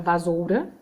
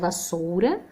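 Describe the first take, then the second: First: The middle consonant is a buzzing z sound. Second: The middle consonant is a hissing s sound. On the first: The speaker calls it wrong. "se eu deixar com S só fica vasoura" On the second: The speaker calls it right. "também é com dois S's"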